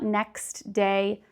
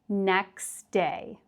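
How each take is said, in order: First: The T sound in next is pronounced. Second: The T sound in next is dropped. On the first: The speaker calls it wrong. "So it's not next day" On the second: The speaker calls it right. "but it becomes next day"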